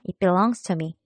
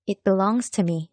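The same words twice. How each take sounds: First: Said in the usual way. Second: Slow model sentence. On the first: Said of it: "그렇죠". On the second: Shown as a demonstration. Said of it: "내 거야 하면 어떻게 될까요".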